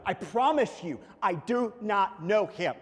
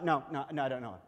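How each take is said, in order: First: Loud, higher "I do not know him", each word slow and separate; emphatic oath. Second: Casual denial. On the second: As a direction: wave the question away, acting Peter. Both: Acted. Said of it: "he makes a note".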